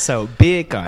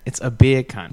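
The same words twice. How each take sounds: First: Beer can said like Jamaican bacon; Jamaican accent. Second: Beer can with a British accent. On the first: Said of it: "Jamaican accent". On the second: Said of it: "when you say beer can in a British accent". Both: Shown as a demonstration.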